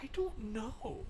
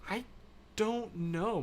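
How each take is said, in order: First: Slow, very soft whisper. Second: Said in the usual way. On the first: Pretend. Streamer wondering if a game still exists, slow whisper. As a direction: whisper it, drawing out the words. Playful whispered answer to viewer.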